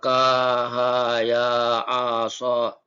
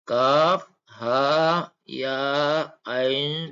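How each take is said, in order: First: The letters are said as short-vowel syllables. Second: Each letter is said by its full name. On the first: The speaker calls it wrong. "kalau dibaca salah itu" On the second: The speaker calls it right. "yang benar adalah"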